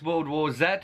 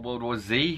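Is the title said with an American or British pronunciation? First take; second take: British; American. First: The final letter has a British pronunciation. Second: The final letter has an American pronunciation.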